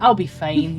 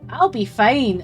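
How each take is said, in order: First: It is said in a normal voice. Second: It is said in a high voice.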